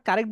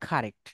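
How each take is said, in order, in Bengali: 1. "k" ধ্বনিতে বাতাসের কোনো ঝলক নেই। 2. "k" ধ্বনিতে জোরালো বাতাসের ঝলক আছে।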